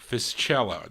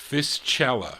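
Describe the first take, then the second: First: The name is pronounced the Italian way. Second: The name is pronounced the Italian way.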